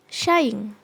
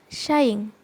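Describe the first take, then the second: Both takes have the same delivery.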